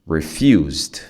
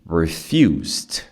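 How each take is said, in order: First: The base word is followed by a D sound. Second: The base word is followed by a D sound.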